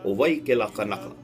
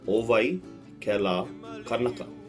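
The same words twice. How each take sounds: First: It is said at normal speed. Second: It is said more slowly.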